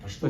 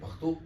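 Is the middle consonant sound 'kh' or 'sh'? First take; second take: sh; kh. First: The middle consonant is a hushing 'sh' sound. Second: The middle consonant is a rough 'kh' sound. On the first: This is how the speaker's own dialect says it. "हम कहते हैं पश्तो" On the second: This is how the other dialect's speakers say it. "वो कहते हैं पख्तो"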